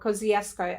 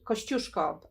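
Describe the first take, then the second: First: The name is said with Australian English pronunciation. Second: The name is said with Polish pronunciation. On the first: The speaker calls it wrong. "as we uh, butcher it here in Australia" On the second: The speaker calls it right. "let me get this right"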